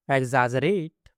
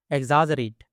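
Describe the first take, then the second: First: exaggerate with a long final "rate"; exaggerate lengthened for learners to follow. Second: Said in the usual way. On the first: Shown as a demonstration. Word model, then drawn-out repeat.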